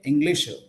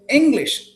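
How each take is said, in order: First: An extra 'uh' vowel follows the final consonant. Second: The final consonant ends cleanly with no vowel. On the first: The speaker calls it wrong. "Don't say English" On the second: The speaker calls it right. "try to say English"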